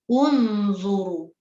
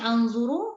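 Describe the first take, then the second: First: The word begins with an u vowel. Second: The word begins with an a vowel. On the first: The speaker calls it right. "dibaca dengan baris depan ataupun baris dhammah" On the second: The speaker calls it wrong. "Jangan baca anzuru"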